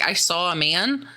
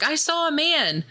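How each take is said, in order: First: Said in the usual way. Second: Much higher, wide-eyed I saw a man; squeaky insistent claim. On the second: Retold or imitated. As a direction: play the spooked friend, voice jumping up. Sarah insists she saw someone.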